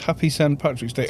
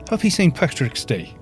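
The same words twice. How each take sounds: First: It is said in the speaker's usual accent. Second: It is said in a mixed Irish accent.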